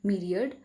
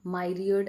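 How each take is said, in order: First: Myriad said as "MI-ree-ad"; correct pronunciation of myriad. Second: Myriad said as "MY-ree-ad"; mispronounced myriad. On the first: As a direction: start myriad with a short "mi", as in "mirror". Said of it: "इसका सही pronunciation है". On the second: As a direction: start myriad with "my", as in "my-riad". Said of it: "ऐसे करके प्रोनाउंसिएट मत करिएगा". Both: Shown as a demonstration.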